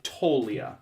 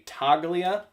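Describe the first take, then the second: First: The G sound is silent in the name. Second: The G sound is pronounced in the name. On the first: The speaker calls it right. "You don't even pronounce the G" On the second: The speaker calls it wrong. "I say Toglia"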